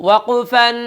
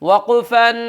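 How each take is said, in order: The two takes are said the same way.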